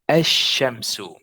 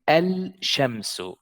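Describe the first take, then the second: First: No L sound; the sh is doubled. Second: An L sound is heard before the sh. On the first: The speaker calls it right. "That means that the lam is silent here" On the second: The speaker calls it wrong. "I did not say al-shamsu"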